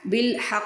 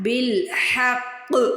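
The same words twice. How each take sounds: First: The final consonant is said lightly, without force. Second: The final consonant is pressed with full force. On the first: The speaker calls it wrong. "बिल हक़ नहीं पढ़ना" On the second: The speaker calls it right. "इसको पूरा ज़ोर लगा के पढ़ना है"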